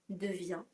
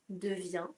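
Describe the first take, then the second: Both takes have the same delivery.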